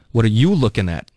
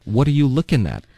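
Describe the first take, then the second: First: "you" punched as a challenge; stress on YOU. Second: Simple question, "looking" carrying the weight; stress on LOOKING. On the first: Teacher drilling the confrontational question, stress on "you". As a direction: hit "you" hard, confronting the onlooker. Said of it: "如果你把重音放在you上呢". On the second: Teacher drilling the neutral question, stress on "looking". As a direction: ask it with "looking" stressed rather than "you". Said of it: "把重音放在了". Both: Shown as a demonstration.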